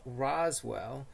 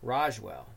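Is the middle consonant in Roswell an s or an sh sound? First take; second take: s; sh. First: The middle consonant is a plain s sound. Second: The middle consonant is an sh sound.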